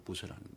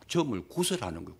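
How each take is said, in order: First: Dropped to a near-hush repeat; quiet trailing echo of the line; soft echo. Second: Said in the usual way. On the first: Shown as a demonstration. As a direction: repeat it softly under the breath.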